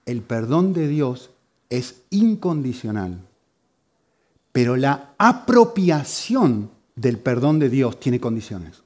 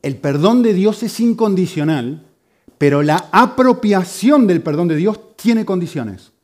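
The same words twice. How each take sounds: First: Slow, measured delivery of "incondicional" and "condiciones"; careful explanation. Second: Higher, louder, slow stress on "incondicional" and "apropiación"; emphatic restatement. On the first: Preacher explaining an important difference to the congregation, careful and slow. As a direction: set out "El perdón de Dios" slowly, phrase by phrase. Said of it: "muy importante entender la diferencia".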